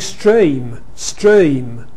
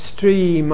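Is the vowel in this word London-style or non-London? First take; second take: London; non-London. First: The vowel has a strong London diphthong shift. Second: The vowel is central, without a strong London shift. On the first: "Which is the London pronunciation" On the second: "That sounds a bit central to me"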